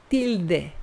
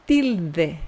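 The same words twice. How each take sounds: The two takes are said the same way.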